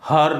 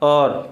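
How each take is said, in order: First: An H sound is heard at the start. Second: The word starts directly with a vowel. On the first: The speaker calls it wrong. "हर नहीं" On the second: The speaker calls it right. "एच का sound नहीं होता"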